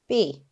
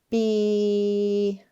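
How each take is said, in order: First: The word is said quickly as one unit. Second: The sounds are drawn out slowly. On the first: "Let's say it fast" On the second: "Let's tap and stretch them together"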